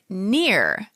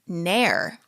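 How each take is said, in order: First: The vowel sounds like the word 'ear'. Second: The vowel sounds like the word 'air'. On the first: This is how the family has always said it. The speaker calls it wrong. "We pronounce my last name Neer" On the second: This is the name's original pronunciation. The speaker calls it right. "my last name is actually pronounced Nair"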